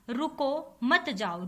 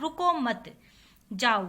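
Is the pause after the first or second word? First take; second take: first; second. First: There is a pause after the first word. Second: There is a pause after the second word.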